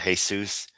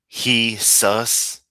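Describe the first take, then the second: First: The name begins with a J sound. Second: The name begins with an H sound.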